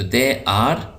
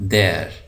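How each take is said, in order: First: It is said as two full separate words. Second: It is said as one short contracted word. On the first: "दे आर पूरा" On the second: "देर ये मुख्तसर शक्ल"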